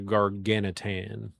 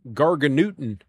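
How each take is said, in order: First: The word ends with a short 'nitan' sound. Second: The word ends with a 'newton' sound. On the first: The speaker calls it right. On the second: The speaker calls it wrong.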